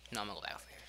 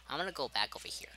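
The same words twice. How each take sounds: First: Said in the usual way. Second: Whispered to self; hushed self-talk. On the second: Real, not acted. Repeats line, whispered first.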